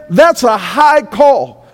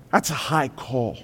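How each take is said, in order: First: Loud slow declaration. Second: Quiet solemn line. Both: Acted.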